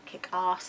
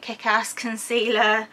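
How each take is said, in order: First: "Ass" said the British way, with a long broad ah like "ahss"; very English. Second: "Ass" said with a short flat a, as in "cat"; less English. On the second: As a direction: redo "Kick Ass" with the flat American a. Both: Shown as a demonstration. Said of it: "that was very English".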